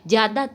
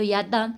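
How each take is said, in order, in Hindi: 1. शब्द 'z' ध्वनि से शुरू होता है। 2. शब्द 'y' ध्वनि से शुरू होता है।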